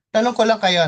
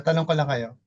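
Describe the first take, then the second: First: Raised, louder call to the group; louder question. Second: Said in the usual way. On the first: Real, not acted. Pastor calling a question out to the group, louder.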